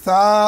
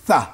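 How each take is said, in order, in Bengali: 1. স্বরটি টেনে লম্বা করা হয়েছে। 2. স্বরটি ছোট, টানা নয়। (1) "কেউ যদি পড়ি সা, ভুল" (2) "এখানে হবে সা, টানবো না"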